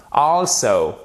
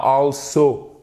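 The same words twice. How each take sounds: First: "Also" said with an open o, stressed first; correct pronunciation. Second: "also" said the French way, a as in "la"; wrong pronunciation. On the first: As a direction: model the right "Also". (bonne prononciation de « Also ») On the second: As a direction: show the mistake in "also". (mauvaise prononciation de « also », à la française) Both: Shown as a demonstration. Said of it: "Et pas also".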